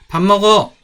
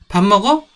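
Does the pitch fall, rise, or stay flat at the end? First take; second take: fall; rise. First: The pitch falls at the end. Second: The pitch rises at the end. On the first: It says that oneself is eating. "이거는 자기 밥 먹는다는 얘기 같죠?" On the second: It asks whether someone is eating. "이거는 밥 먹는지 물어보는 거죠. 의문문이에요"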